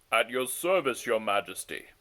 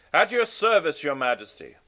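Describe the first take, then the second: First: Put-on lower, rougher retake of the old messenger; deep and gravelly. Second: High, loud first go at a deep gravelly voice; failed deep voice. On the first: Onegin steps forward to serve the king, deep and gravelly. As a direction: settle down into a gravelly bow. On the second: Onegin answers the king, an overshooting loud attempt. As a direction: aim for gravel but land high and loud. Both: A narrator's reading. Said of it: "his voice deep and gravelly".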